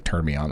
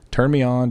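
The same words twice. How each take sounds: First: Lower, softer mock sultry take; a half-joking seductive croon; hammed-up sultry voice. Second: Said in the usual way. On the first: Shown as a demonstration. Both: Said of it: "Like, sound terrible".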